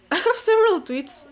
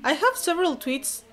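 First: High, loud laughing repeat. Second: Said in the usual way. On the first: Real, not acted. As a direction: laugh through the line.

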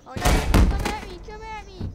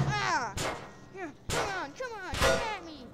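First: Very loud, high challenge; shouted taunt. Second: High, loud goading calls; taunting challenge. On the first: Opponent answering the dare, shouted taunt. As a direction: yell the dare right back at him. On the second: Fighter daring his opponent to attack, taunting. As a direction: goad him with raised, falling cries. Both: Acted.

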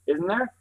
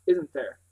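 First: "Isn't there" higher, rising at the end; questioning echo. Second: "isn't there" falling at the end; falling tag question. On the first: Girl challenges the boy's claim, "Isn't there" rising. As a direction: throw "Isn't there" back with a questioning rise. Doubting echo of previous words. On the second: Boy closes his argument, "isn't there" falling. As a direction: let "isn't there" drop, settling the point. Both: Acted.

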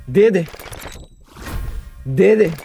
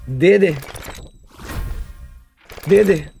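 No difference in how they are said.

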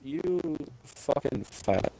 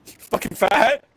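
First: Slow muttered insult. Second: Higher, louder jab of "fat" with a rising end; mock yelled insult. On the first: Repeating the insult to his teammate, slow and soft. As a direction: drag "You fucking fat" out slowly and softer. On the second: Yelling at a teammate who fumbled the jump, mock insult. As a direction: shout "You fucking fat!" at him, half laughing. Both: Real, not acted.

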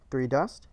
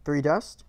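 No difference in how they are said.

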